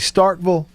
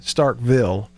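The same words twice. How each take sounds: First: The name is said in a relaxed, casual way. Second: The name is said in a careful, clear way. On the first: This is how it is said in everyday talk. "I'll say Starkville in conversation" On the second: This is how it is said on air. "Starkville on the radio"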